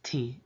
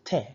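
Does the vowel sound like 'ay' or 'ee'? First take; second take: ee; ay. First: The vowel sounds like English 'ee'. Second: The vowel sounds like English 'ay'. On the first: The speaker calls it wrong. "it's not pronounced T" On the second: The speaker calls it right. "it's pronounced te, like spelled here under it, T A Y"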